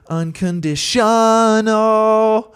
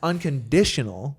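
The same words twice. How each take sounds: First: The stress falls on the syllable shun. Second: The stress falls on the syllable di. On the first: The speaker calls it wrong. "why are you emphasizing shun so much?" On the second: The speaker calls it right. "everyone puts the emphasis on unconditional, the di"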